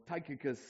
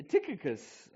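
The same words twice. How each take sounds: First: Tychicus with a first syllable like "tike"; long-i pronunciation. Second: Tychicus with a first syllable like "tick"; short-i pronunciation. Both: Shown as a demonstration. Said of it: "or however it's pronounced".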